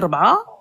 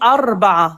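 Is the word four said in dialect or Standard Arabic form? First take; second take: dialect; standard. First: It starts directly with r, no initial vowel. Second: It starts with an initial a before r. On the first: This is the everyday spoken form. "en dialecte, on dit ربعة" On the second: This is the formal written-language form. "en arabe littéraire, on dit أربعة"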